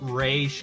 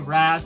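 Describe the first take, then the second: First: The name ends with an sh sound. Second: The name ends with a z sound. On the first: "saying it's Raish" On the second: "I prefer to say Raz"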